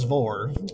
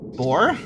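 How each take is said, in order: First: The word begins with a V sound. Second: The word begins with a B sound. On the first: The speaker calls it right. "Assuming the modern pronunciation of beta with a V sound" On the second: The speaker calls it wrong. "No, that's not right"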